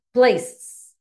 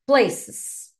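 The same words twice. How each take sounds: First: "Places" said again, louder and clearer for repetition; a loud, deliberate model of "Places"; teacher repeating "Places" louder for students to copy; model pronunciation, louder. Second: Clear, careful English "Places" for the class to repeat; teacher modelling the English word "Places" for students; model pronunciation. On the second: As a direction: say "Places" slowly and crisply as a model. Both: Shown as a demonstration. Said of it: "eu vou falar inglês e você fala depois de mim".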